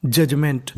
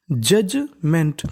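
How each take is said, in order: First: Said in the usual way. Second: judgement drawn out very slowly, each syllable separate; teacher sounding out judgement piece by piece. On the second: Shown as a demonstration. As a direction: spell out judgement slowly for students to copy. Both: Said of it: "teacher models pronunciation".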